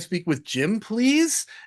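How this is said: The pitch rises at the end. It sounds like a salesperson asking permission. The speaker calls it wrong. "that upward inflection"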